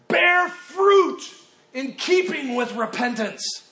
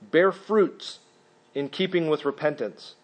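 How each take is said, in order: First: It is said forcefully, with strong passion. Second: It is read in a plain, calm way. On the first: The speaker calls it right. "Probably more the manner that he would deliver it. In passion" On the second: The speaker calls it wrong. "he probably didn't say it like that"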